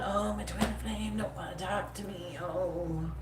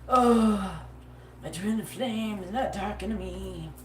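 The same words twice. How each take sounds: First: Slow and soft, the same lament in her own voice; her own take on the mope. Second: Slow, mopey imitation of a lovelorn girl, not her own sound; mock the sulking lover pining by the phone; mopey lovesick mock. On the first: Retold or imitated. Reader redoes the lament as she would say it, soft and slow. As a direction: say it the way you yourself would sigh it. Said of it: "This is what I sound like if I was to say that". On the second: Reader mocks a client pining for her twin flame, mopey. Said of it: "Sorry, that's not even nothing I sound, you sound like".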